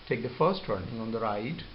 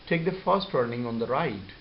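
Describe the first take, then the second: First: The pitch rises at the end. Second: The pitch falls at the end.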